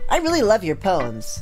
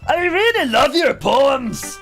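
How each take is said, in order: First: It is said in a normal voice. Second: It is said in a silly put-on voice.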